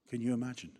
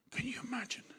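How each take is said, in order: First: Said in the usual way. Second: Whisper. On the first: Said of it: "repeated plainly". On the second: Real, not acted. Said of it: "whispered aside".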